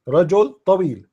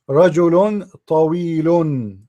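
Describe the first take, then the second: First: Both words end without any added vowel ending. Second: Both words end with an added -un sound. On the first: "Plain and easy" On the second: "I don't say dhammatain"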